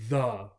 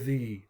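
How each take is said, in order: First: The word is said in its short weak form. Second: The word is said in its full strong form. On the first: This is the common everyday way. "they're more than likely going to say the" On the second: This is for stress or public speaking. "to stress a word or an idea or to do public speaking"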